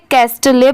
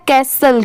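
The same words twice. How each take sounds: First: कैस्टले with the t sounded and a final "lay"; common mispronunciation. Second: कैसल with silent t, ending in plain "sul"; correct pronunciation. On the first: Teacher quoting how many learners misread it, common mispronunciation. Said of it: "बहुत सारे लोग इसे कैस्टले पढ़ते हैं". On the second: Teacher correcting a common misreading for learners, correct pronunciation. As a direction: correct it to two-syllable कैसल, no t. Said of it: "इसकी sound क्या आती है". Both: Shown as a demonstration.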